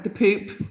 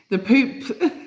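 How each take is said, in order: First: Said in the usual way. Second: "the Pope" with a laugh breaking through; fighting back laughter on "the Pope". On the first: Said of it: "I can't say it without laughing". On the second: Real, not acted. Vlogger can't say the Pope without laughing. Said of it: "I can't say it without laughing to myself".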